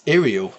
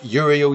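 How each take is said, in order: First: The name begins with a vowel sound. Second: The name begins with a 'y' sound. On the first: The speaker calls it right. "You pronounce it as an I, not a Y" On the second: The speaker calls it wrong. "I always said Uriel Yellow"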